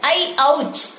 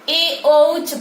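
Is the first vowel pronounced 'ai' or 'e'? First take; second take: ai; e. First: The first vowel is an ai sound. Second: The first vowel is a plain e sound. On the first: The speaker calls it right. "संस्कृत में इसका उच्चारण ऐ औ च होता है" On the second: The speaker calls it wrong. "छात्र प्रायः इसको ए औच पढ़ते हैं"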